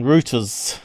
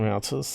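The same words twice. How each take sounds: First: It is said in the English pronunciation. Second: It is said in the American pronunciation. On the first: "as the English call them, ... which kind of sounds rude" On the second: "they don't call them routers"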